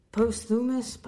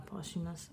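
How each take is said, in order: First: Posthumous stumbled out as post-thumous; mispronounced word. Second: Posthumous said as "pahs-oo-mus" with no "th"; posthumous, quiet "pah-soo-mus"; corrected pronunciation. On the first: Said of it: "I cannot pronounce words". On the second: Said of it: "I think it's just posthumous". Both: Real, not acted.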